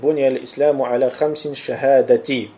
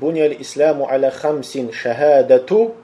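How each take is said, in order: First: The last word ends in an 'i' vowel. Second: The last word ends in a 'u' vowel. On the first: The testimony is in apposition to the five. "Предпочтительнее в этом хадисе употреблять его с кясрой «шахадати»" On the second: One of the five pillars is the testimony. "можно произносить как «шахадату», то есть «марфу», с «даммой»"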